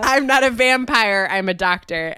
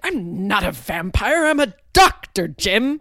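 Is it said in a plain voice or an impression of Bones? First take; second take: plain; impression. First: It is said in a plain voice. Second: It is said imitating Bones's voice.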